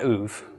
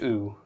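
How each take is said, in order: First: The vowel is followed by a v sound. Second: It is a bare vowel with no consonant. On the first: The speaker calls it wrong. "not oov" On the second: The speaker calls it right. "it's just oo"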